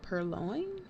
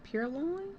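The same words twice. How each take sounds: First: "purloin" as pur-LOIN, testing it quietly; unsure pronunciation. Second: "Purloin" as pyur-LOIN, rising; alternate pronunciation. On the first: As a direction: say "purloin" softly with an er sound. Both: Shown as a demonstration. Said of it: "Is it purloin?".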